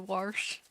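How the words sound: The word has a southern country pronunciation. This is how the grandmother said it. "My grandma used to say wash"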